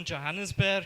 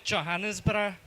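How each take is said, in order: First: Johannesburg said in an ordinary English way; plain Johannesburg. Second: Johannesburg with a hard J and a rolled final r, Joburg local style. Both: Shown as a demonstration. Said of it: "Or as we pronounce it".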